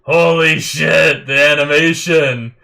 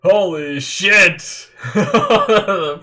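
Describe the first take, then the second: First: Floored by the animation; stunned awe. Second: Slow, loud drawn-out curse, higher; shocked yell. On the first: Reacting to stunning fight animation. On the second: Fan watching the warping attack, loud stretched-out curse. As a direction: blown away all over again. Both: Real, not acted.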